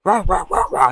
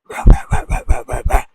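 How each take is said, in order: First: Loud, high imitated barks; spoken "rah" barking; dog barking. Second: Loud, noisy imitated barks; pitchless, forceful dog barks; dog barking. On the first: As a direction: bark rapidly like an angry dog. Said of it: "Every time a dog starts barking". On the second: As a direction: bark harshly and repeatedly. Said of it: "And the dog keeps".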